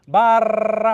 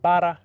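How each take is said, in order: First: "Bara" with a long rolled R, much higher and louder; an exaggerated, trilled "Bara"; full trill. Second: "Bara" with just one light tap of the tongue, louder; one quick tap on the R in "Bara". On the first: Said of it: "You don't wanna say". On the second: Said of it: "just one teeny little tap". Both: Shown as a demonstration.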